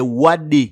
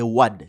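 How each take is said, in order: First: The name ends in a vowel sound. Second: The name ends in a bare consonant sound. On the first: The speaker calls it right. "c'est Wade" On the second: The speaker calls it wrong. "Il n'y a pas de nom africain qui finisse avec les Wad"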